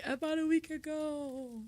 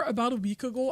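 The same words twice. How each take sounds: First: Quiet mock Canadian. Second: Said in the usual way. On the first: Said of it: "I have to say". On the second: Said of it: "Every time I hear".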